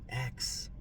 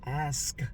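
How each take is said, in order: First: The k sound comes before the s. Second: The s sound comes before the k. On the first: This is the Southern way of saying it. The speaker calls it wrong. "I'm from the South" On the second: This is the form the grammar corrector expects. The speaker calls it right. "it's ask and not X"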